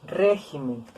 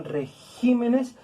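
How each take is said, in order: First: "Régimen" with RÉ drawn out, then falling; stress on RÉ. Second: "regímenes" slowed, with GÍ set apart and drawn out; teacher showing the shifted stress, re-GÍ-me-nes; stress moved to GÍ. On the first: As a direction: lean on the first syllable of "Régimen". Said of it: "también es una palabra esdrújula". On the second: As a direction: break before GÍ and lean on it in "regímenes". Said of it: "el acento se recorre". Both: Shown as a demonstration.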